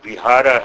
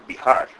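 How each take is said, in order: First: The final short vowel is pronounced. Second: The final short vowel is dropped. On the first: "So Bihara has become Bihar" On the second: "we swallow the last short vowel a"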